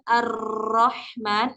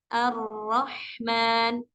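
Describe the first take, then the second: First: The r is trilled with too much pressure. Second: The r is trilled lightly and gently. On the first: The speaker calls it wrong. "bukan terlalu ditekan" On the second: The speaker calls it right. "getarannya lembut saja"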